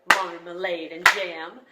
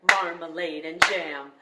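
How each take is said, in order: The two takes are said the same way.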